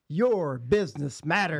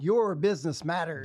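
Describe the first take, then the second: First: It is said with attitude and punch. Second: It is said flatly, without attitude.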